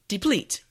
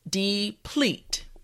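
First: The word is said at normal speed. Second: The word is said slowly and carefully. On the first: "now let's say it at a normal pace" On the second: "repeat after me"

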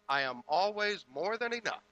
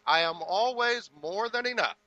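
First: It is said plainly, without much feeling. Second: It is said with strong feeling and conviction.

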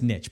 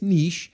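First: It is said the American way, like 'nitch'. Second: It is said the British way, like 'neesh'.

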